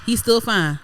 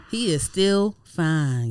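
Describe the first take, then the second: First: Said in the usual way. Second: He is still fine drawn out slowly, each word leaned on; slow emphatic. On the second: Real, not acted. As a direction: stretch "still" and savor it. Gushing over his looks.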